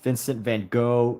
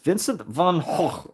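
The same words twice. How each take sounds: First: The name is said with English pronunciation. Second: The name is said with Dutch pronunciation. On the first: The speaker calls it wrong. "is not pronounced" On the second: The speaker calls it right. "the correct pronunciation"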